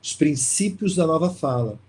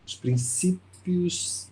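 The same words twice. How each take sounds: First: Said in the usual way. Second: Os Princípios drawn out slowly, each syllable weighed; slow emphasis. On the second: Shown as a demonstration. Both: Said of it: "mas chama-se".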